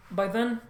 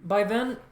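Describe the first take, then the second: No difference in how they are said.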